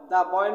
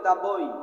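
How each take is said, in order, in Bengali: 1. শব্দটিতে সুর নিচে নামে। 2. শব্দটিতে সুর উপরে ওঠে। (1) "দ্য বয় না বলে" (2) "এই শব্দটা রাইজিং টিউন হবে, উপরের দিকে উঠবে"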